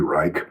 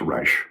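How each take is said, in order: First: The name ends with a hard final sound. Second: The name ends with a soft sh sound. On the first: This is how it is said in Germany. "In Germany, it would be Reich" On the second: This is how it is said in Austria. "in Austria, it's Reich"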